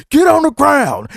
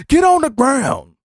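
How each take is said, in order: First: High, loud arrest command; mock police shout. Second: High, drawn-out repeat of the order; slower mock police command. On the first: Police yelling at suspect stepping outside, loud command. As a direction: bark it like a cop making an arrest. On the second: Police repeating order to suspect on ground, slower. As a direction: stretch the command out, still high. Police arrest outside, shouting.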